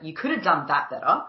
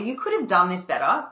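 First: It sounds harsh and critical. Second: It sounds light and friendly.

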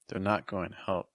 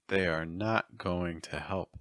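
First: The words 'they are' are joined as 'they're'. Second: The words 'they are' are said separately. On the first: "say it contracted" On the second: "say it with the verb to be in its full form"

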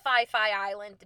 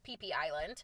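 First: The name starts with an f sound. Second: The name starts with a p sound. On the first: The speaker calls it wrong. "No one ever knows how to pronounce it" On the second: The speaker calls it right. "from the locals, it is PP Island"

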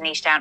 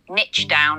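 First: The word niche has a British pronunciation. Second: The word niche has an American pronunciation.

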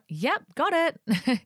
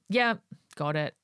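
First: It sounds warm and friendly. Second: It sounds curt and dismissive.

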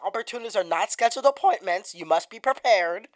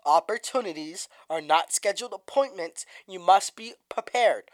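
First: It is said at a normal speed. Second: It is said slowly.

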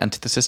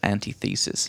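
First: It is said as 'an-TITH-esis'. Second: It is said as 'anti' plus 'thesis'. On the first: The speaker calls it right. "Then I heard antithesis" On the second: The speaker calls it wrong. "I used to actually read this as antithesis"

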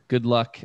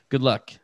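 Both takes have the same delivery.

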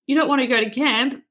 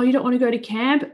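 First: It is said in a harsh, tough tone. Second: It is said in a gentle, soft tone.

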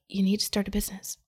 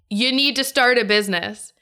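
First: It is said somewhat louder and firmer. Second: It is said very loudly and forcefully. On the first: The inner voice is getting more insistent. "it got a little bit louder" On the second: The inner voice is demanding to be heard. "it got way louder"

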